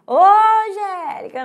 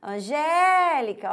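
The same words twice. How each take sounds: First: Mock gate call, high-pitched "Ô, Angélica"; wrong way of calling. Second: ANGÉLICA called slowly, higher, GÉ held long; calling out. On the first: Teacher jokes how not to call at the gate, mock calling out. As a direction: playfully holler it the wrong way, higher. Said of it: "Eu não vou falar assim". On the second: Teacher shows how to call at the gate, Angélica with a long raised GÉ. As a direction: sing out the GÉ in Angélica, slow and raised. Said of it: "eu chego e chamo". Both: Shown as a demonstration.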